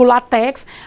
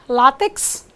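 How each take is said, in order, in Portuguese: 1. A tônica está na última sílaba. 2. A tônica está na primeira sílaba. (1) "eu não digo latex" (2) "paroxítona"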